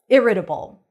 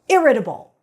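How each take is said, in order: First: The word is said in a calm, neutral tone. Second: The word is said in an angry tone.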